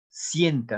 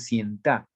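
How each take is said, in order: First: The stress is on the first syllable. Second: The stress is on the last syllable. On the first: The speaker calls it right. "cien en la primera sílaba" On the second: The speaker calls it wrong. "no se dice sienta"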